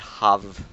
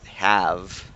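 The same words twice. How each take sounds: First: The vowel is an open ah sound. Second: The vowel is like the a in cat. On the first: "in Japanese the word have would be pronounced have because you have to say ah" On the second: "Instead of English it's have"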